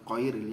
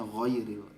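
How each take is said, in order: First: It begins with a hard q sound. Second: It begins with a throaty gh sound. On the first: The speaker calls it wrong. "bacaannya qairil ya" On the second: The speaker calls it right. "harusnya ghairil pakai ghain"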